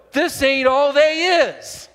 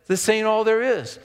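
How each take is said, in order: First: Higher, louder and slow, leaning hard on "they is"; emphatic preaching line. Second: Said in the usual way. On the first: Shown as a demonstration. Preacher echoing his old sermon to the congregation, slow and loud. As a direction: drive home "this ain't all they is" like the pulpit. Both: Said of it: "And like I preached".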